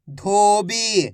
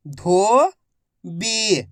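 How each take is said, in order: First: Said in the usual way. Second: धोबी drawn out very slowly, each syllable held long; stretched out. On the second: Shown as a demonstration. Teacher draws out धोबी for students to copy, very slowly. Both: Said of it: "मेरे तरीके पे गौर करना है".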